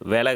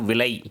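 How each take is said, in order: First: The first vowel is an e sound. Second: The first vowel is an i sound. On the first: This is the spoken, colloquial form. The speaker calls it wrong. "வெலை கிடையாது" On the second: This is the written, standard form. The speaker calls it right.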